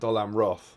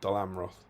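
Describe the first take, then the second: First: The stress is on the last syllable, roth. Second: The stress is on the first syllable, Dol. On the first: "it's putting the emphasis on the Roth" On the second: "putting the emphasis on the ah"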